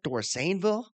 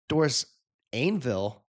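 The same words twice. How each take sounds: First: The middle 'ain' sound is said lightly. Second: The middle 'ain' sound is strongly overpronounced. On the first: The speaker calls it right. "that one sounded better" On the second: The speaker calls it wrong. "The first one, there's a little too much pronunciation on the ain"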